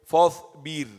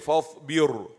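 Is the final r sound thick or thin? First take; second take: thin; thick. First: The final r is light and thin. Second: The final r is heavy and full-mouthed. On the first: The speaker calls it right. "the ra will be thin because it is sakin" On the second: The speaker calls it wrong. "So don't say fasbir"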